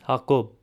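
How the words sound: It is said with an Eastern Armenian pronunciation. "In Eastern Armenian"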